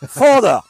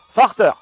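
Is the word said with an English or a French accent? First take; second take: English; French. First: The word is said with an attempted English accent. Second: The word is said with a heavy French accent.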